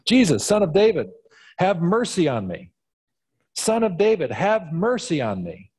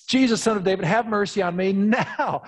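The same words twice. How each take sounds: First: High calling out for mercy; yelled plea. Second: High, insistent call; audacious demand. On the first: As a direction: cry out to Jesus, pleading. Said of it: "to yell out". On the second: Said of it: "to have the audacity to sort of demand it". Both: Acted.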